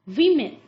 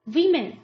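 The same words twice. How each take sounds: First: The first vowel sounds like 'wim'. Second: The same.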